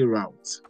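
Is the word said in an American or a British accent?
American. The word is said in an American accent. "If you've been watching American movies so much, you see route"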